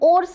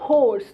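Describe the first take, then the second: First: The word starts with a vowel, no h. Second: The word starts with an h sound. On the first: The speaker calls it wrong. "मैं ओर्स नहीं पढ़ूंगी" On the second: The speaker calls it right. "इसे मैं क्या पढ़ूंगी"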